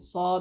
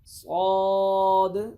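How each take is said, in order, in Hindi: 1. अक्षर का नाम छोटा और जल्दी से बोला गया है। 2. अक्षर का नाम पूरा बोला गया है। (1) "जल्दी में सौ पढ़ जाते हैं" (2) "सौद इस तरह पूरा पढ़ के"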